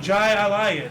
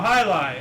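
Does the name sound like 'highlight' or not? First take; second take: not highlight; highlight. First: The name does not sound like 'highlight'. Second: The name sounds like the word 'highlight'. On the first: The speaker calls it wrong. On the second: The speaker calls it right.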